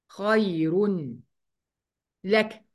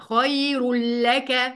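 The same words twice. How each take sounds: First: An n sound is heard before the l. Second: The n is dropped and merges into the l. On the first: "خير اهي كانها تتنطق كده" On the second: "هنشيل النون ... وهندخل على طول على اللام"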